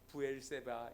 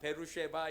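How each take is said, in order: First: The name is said as 'Bu-el-se-ba'. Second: The name is said as 'Be-ru-she-ba'. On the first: This follows the name as written in the Bible. "성경에 나오는 지명 이름 그대로 부엘세바 이렇게 하시면 돼요" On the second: This is how people on site say it today. "이렇게 발음을 하더라고요"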